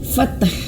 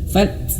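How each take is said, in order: First: The word ends with an extra vowel sound. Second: The word ends on a bare consonant. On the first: The speaker calls it wrong. "Jangan sampai ya bacanya fathah" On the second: The speaker calls it right. "tidak, tapi fath"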